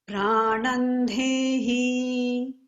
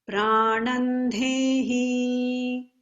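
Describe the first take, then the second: No difference in how they are said.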